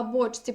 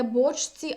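First: Бочці with ч merged into one long soft ць. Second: Бочці said as written, ч clearly before ці; ch kept before tsi. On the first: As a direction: turn бочці into боцьці, holding the ць. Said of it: "«ць» подовжене". (бочці як боцьці, з подовженим ць) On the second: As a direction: sound the ч in бочці. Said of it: "Не". (бочці з виразним ч, як на письмі) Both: Shown as a demonstration.

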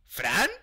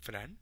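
First: Louder name, swooping sharply upward; insistent call. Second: Low, soft questioning name; tentative call. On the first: Player wanting an answer from Fran, insistent call. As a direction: call out with a steep questioning rise. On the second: Player checking whether Fran is there, tentative call. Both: Real, not acted.

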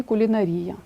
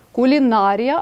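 First: "кулінарія" stressed on РІ: кулінаРІя; alternative stress. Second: "кулінарія" stressed on НА: куліНАрія. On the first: Teacher adds the allowed variant, quickly, stressing кулінаРІя. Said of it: "але можна сказати і". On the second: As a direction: draw out НА in кулінарія. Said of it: "можна сказати і кулінарія". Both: Shown as a demonstration.

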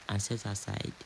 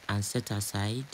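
No difference in how they are said.

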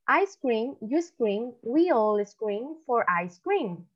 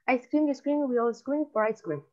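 First: Slow, clearly separated tongue twister; demostración pausada. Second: Quick-fire tongue twister, phrases run together; rapid demonstration. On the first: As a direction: model it slowly for learners to repeat. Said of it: "yo ahorita les voy a decir". (trabalenguas dicho despacio) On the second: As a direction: rattle it off without pausing. (trabalenguas dicho rapidito) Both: Shown as a demonstration.

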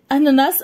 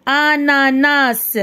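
First: Said in the usual way. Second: "Ananas" very slow, each syllable held. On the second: Shown as a demonstration. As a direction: draw "Ananas" out as a-na-nas. ("Ananas" مقطعًا مقطعًا ببطء شديد) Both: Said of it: "نقراو les syllabes".

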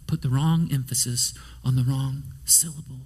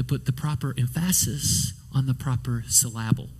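First: Said in the usual way. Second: "emphasis" and "syllable" each stressed on the middle syllable; misplaced stress. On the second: Shown as a demonstration. Preacher joking about proper emphasis, "emphasis" and "syllable" stressed on second syllables. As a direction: jokingly stress em-PHA-sis for "emphasis", syl-LA-ble for "syllable".

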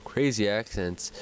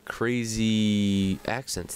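First: Said in the usual way. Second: Slow drawn-out crazy accents. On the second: Shown as a demonstration. Gamer slowly naming his habit, drawling crazy accents.

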